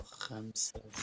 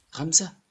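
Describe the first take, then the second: First: Said in the usual way. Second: Sudden loud, high disbelieving question; surprised. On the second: Real, not acted. Player shocked the count ends at five, loud surprise. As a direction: jolt up in real surprise at the number.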